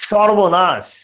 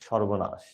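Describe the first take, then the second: First: It is said as an emotional exclamation. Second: It is said flatly, without strong feeling. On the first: The speaker is shocked or alarmed. "আর যদি exclamatory mark দাও" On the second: It is a plain statement. "যদি exclamatory mark না দাও তাহলে সর্বনাশটা উচ্চারিত হয় এরকম"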